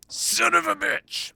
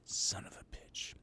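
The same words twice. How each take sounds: First: High, slow drawn-out curse. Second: Hissed whisper under the breath; whispered curse. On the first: Streamer whining a curse, high and drawn out. Reacting to being trolled. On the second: Streamer whispering a curse after being trolled. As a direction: whisper it in disbelief. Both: Acted.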